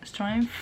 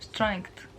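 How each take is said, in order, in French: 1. Le mot se termine par un son f. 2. Le mot se termine par un son k. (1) "souvent les gens le prononcent strength" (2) "c'est pas un F, mais c'est un K"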